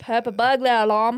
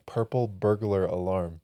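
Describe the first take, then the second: First: Mock Australian, r sounds dropped; attempted Australian accent. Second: Said in the usual way. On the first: Taking friend's challenge, mock Australian accent. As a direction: try it in a rough Australian accent. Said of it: "I don't think it's Australian". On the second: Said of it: "try saying".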